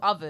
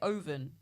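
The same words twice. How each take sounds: First: It is said with a standard English pronunciation. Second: It is said with a foreign-sounding pronunciation. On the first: This is the usual way to say it. The speaker calls it right. "instead of" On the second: This is how the speaker's mother says it. The speaker calls it wrong. "My mum used to say"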